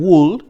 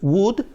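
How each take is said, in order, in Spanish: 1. La palabra se dice con un sonido de L audible. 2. La palabra se dice sin sonido de L. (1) "Algunos estudiantes dicen would, no es would" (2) "es would sin la L"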